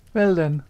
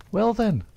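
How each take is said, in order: First: "Well then" cried much louder and high; "Well then" pushed out high and loud. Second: High, louder cry of "Well then"; "Well then" thrown out high and loud; cried out. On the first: Etty presses Jack again, louder cry. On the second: Etty demands the letter, crying out high. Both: A narrator's reading. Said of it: "she cried".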